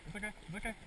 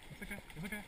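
The two takes are said the same way.

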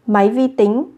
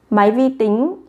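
Both takes have the same delivery.

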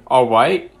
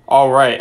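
First: Put-on "All right" sounding like a child; accidental kid voice on "All right"; childish voice. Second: Put-on a Southern accent that misses the mark; not quite Southern "All right"; failed Southern accent. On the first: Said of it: "That just sounds child". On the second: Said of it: "I don't even think that's Southern".

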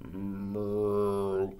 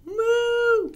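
First: Big cow's long, low moo. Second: Little cow's loud, very high moo. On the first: Reader voices a big cow, low moo. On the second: Reader voices a little cow, high moo. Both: Acted.

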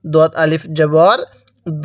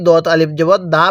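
First: Slow spelling, দ as a long rounded "daw"; heavy d on দ, vowel held toward "o"; correct dad. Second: দা with light d and short "a", like dal; quick spelling ending in a plain, short দা; wrong dad. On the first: Teacher models it for learners to copy, heavy long দ. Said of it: "আমি যেভাবে বলবো আপনি সেভাবে পড়বেন". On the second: Teacher quotes a common mistake, light short দা. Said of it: "যদি এই দালের সাথে মিলিয়ে দেই". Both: Shown as a demonstration.

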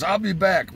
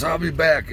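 First: Higher, quick parting call; Bobby's "I'll be back". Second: Higher, brisk parting line; Bobby again. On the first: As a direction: toss it off while running. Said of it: "he goes". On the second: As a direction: call it over the shoulder. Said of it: "Bobby goes". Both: Retold or imitated.

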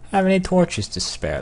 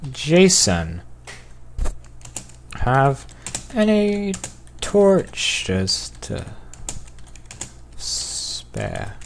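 First: Said in the usual way. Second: Drawn-out words with long pauses; slow dictation. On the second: Real, not acted. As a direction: sound it out word by word as you type. Slowly sounding out typed message.

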